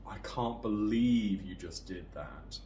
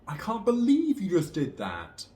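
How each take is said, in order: First: The intonation falls with a sarcastic tone. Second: The intonation rises in shock or annoyance. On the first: The speaker is being sarcastic. "Sarcasm with that falling intonation" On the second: The speaker is shocked or annoyed. "In shock or annoyance"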